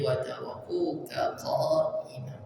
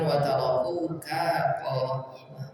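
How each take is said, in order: First: The ka syllable is kept short. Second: The ka syllable is drawn out long. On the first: The speaker calls it right. "di sini harusnya pendek" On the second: The speaker calls it wrong.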